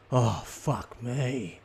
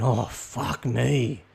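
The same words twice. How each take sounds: First: Very slow, drawn-out exasperated sigh of words; slow fed-up groan. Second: Put-on stretched, weary kid's complaint; slow fed-up groan. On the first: Kid stuck waiting while parents chat, very slow groan. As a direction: drag it out like a bored kid. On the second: Bored kid outside Woolies, drawn-out weary groan. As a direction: let each word sag slowly. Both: Shown as a demonstration. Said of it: "this is the equivalent of a kid saying".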